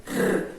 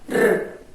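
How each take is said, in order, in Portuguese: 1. O r é uma batidinha leve da língua. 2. O r é uma batidinha leve da língua.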